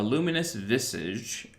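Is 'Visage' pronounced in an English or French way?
English. Visage is pronounced the English way.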